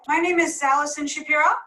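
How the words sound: The voice rises at the end, like a question. The speaker seems unsure of her own name. The speaker calls it wrong. "here's an example of uptalk"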